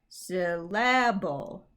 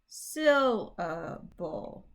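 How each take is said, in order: First: The stress is on a later syllable. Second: The stress is on the first syllable. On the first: The speaker calls it wrong. "I put the emphasis on the wrong syllable" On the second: The speaker calls it right. "one is right"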